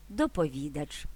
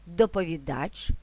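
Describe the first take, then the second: First: ДопоВІдач, stress on VI; stress on third syllable. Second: ДоповіДАЧ, stress at the end, rising tune; stress on last syllable. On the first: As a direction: hit the next-to-last syllable of допоВІдач. (наголос на третій склад: допоВІдач) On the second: (наголос на останній склад: доповіДАЧ) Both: Shown as a demonstration. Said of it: "подвійним наголосом".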